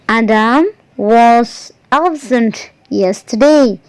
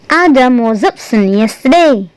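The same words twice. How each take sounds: First: Each word is said separately without linking. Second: Was runs straight into absent without a break.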